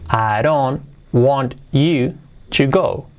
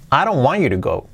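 First: Slow, word-by-word with gaps; careful teaching take; slow model. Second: Fluent, linked, lifting "want"; quick natural English melody; with intonation. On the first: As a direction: dictate each word separately. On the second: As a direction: run it together and stress "want". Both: Shown as a demonstration. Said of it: "Y con entonación".

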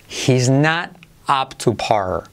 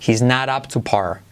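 First: "He's not up to par." very slow, each word clear; slow model sentence. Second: Said in the usual way. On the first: Shown as a demonstration. ("He's not up to par." muy lento, acento en "not") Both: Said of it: "Frase que te hacemos de práctica".

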